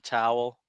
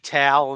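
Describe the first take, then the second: First: It has a standard, non-regional vowel. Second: It has the regional Delaware-Philly vowel.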